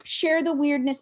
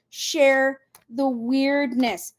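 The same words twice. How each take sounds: First: Said in the usual way. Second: Drawn out, word by word; slow emphatic repeat. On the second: Real, not acted. Host urging viewers to share with others, slow emphatic repeat. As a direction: stretch out SHARE and WEIRDNESS very slowly.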